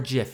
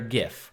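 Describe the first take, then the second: First: It begins with a soft j sound. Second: It begins with a hard g sound.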